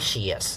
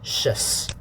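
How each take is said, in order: First: It is split into two parts, she and yes. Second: The sh joins straight onto the uh vowel. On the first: The speaker calls it wrong. "don't say she yes. If you say she yes, it's wrong" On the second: The speaker calls it right. "put the sh together with the uh"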